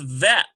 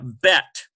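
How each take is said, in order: First: It begins with a soft V sound. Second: It begins with a hard B sound. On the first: The letter lacks the dagesh mark. "it's softer because it's a V sound" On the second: The letter carries the dagesh mark. "With the Dagesh lean, the pronunciation is hard"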